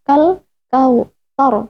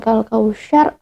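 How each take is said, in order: First: The consonant is a soft th sound. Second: The consonant is an sh sound. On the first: The speaker calls it right. "kal kautsar bukan" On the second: The speaker calls it wrong. "bukan kal kausyar"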